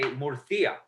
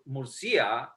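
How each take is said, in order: First: The c is said as a th sound. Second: The c is said as an s sound. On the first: This is how it is said in Spain. "but in Spain they say" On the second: This is how it is said in Peru. "in Peru we would say"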